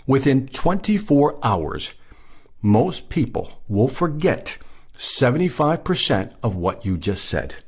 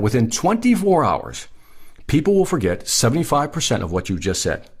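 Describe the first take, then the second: First: Slow, deliberate repeat, broken into weighty phrases; slow for impact. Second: Said in the usual way. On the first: Real, not acted. Trainer driving a statistic home to salespeople, slow and emphatic. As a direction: let each phrase land, pausing between them. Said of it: "I really want this to impact you". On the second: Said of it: "Let me say it again".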